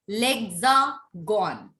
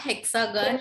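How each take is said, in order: First: The word begins with an L sound. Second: The word begins with an H sound. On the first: The speaker calls it right. "It is called lexagon" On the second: The speaker calls it wrong. "it is not hexagon"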